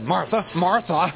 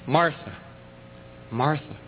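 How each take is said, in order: First: The name is said in a harsh, scolding tone. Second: The name is said in a gentle, caring tone. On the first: The speaker is annoyed and about to scold her. The speaker calls it wrong. "we'd have known that he didn't feel too kindly toward her, that he was ready to chew her out" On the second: The speaker cares and gently asks for her attention. The speaker calls it right. "with that tender rebuke in his voice"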